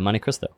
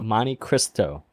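First: The t in Cristo is dropped, sounding like Crisco. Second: The t in Cristo is clearly pronounced. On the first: The speaker calls it wrong. "you said Crisco" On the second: The speaker calls it right. "You said the T"

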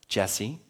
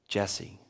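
First: The name is said in a light, friendly tone. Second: The name is said in a firm, serious tone. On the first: The caller just wants a casual chat. "Jesse means, hey, I want to talk to you" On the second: The caller has something important to discuss. "Jesse means, I need to talk to you"

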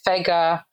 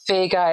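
First: The E vowel is said with its careful quality. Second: The E vowel is said the usual casual way. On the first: This is the name's real pronunciation. The speaker calls it right. "how to pronounce the E properly" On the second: This is how others misread the name. The speaker calls it wrong. "it's actually not Vega"

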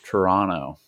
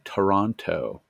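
First: The second T is dropped. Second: The second T is clearly pronounced. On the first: This is how locals say the name. The speaker calls it right. "I don't think I would even pronounce that second T" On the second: This is how outsiders say the name. The speaker calls it wrong. "the voice actors say Toronto, which is not how it is pronounced"

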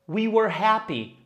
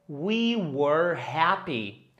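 First: It is said fast. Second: It is said slowly.

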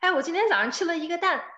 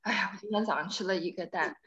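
First: It is said in a happy, pleased tone. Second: It is said in a disappointed, complaining tone.

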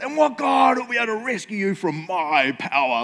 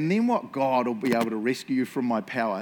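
First: It is read in an angry, furious tone. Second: It is read in a calm, neutral tone.

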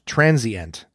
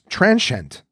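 First: The word is said with three syllables. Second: The word is said with two syllables. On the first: The speaker calls it wrong. "not transient" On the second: The speaker calls it right. "It has 2 syllables, not 3. So it's transient"

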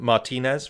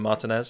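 First: The name is said in a more exotic way. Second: The name is said in a plain way.

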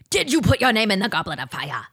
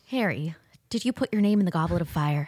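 First: The question is asked loudly and forcefully. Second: The question is asked softly and gently.

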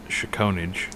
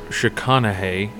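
First: It is said in a common anglicized pronunciation. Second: It is said in the native-style pronunciation. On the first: The speaker calls it wrong. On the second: The speaker calls it right.

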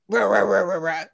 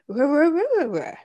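First: The tone is harsh and aggressive. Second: The tone is nice and gentle. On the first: He is rudely telling his friends to leave. The speaker calls it wrong. "instead of being like" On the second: He is politely asking his friends to leave. The speaker calls it right. "he could be like"

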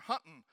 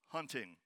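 First: The ending is clipped, with no final g. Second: The ending is full, with the final g. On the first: "or hunting" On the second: "instead of hunting"

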